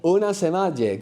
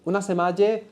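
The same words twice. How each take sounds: First: Said in the usual way. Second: Higher, rising questioning tone; puzzled "come again?". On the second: Acted. Teacher acting out not understanding somebody, puzzled rising question. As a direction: ask it as if you didn't catch that. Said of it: "So when you don't understand somebody".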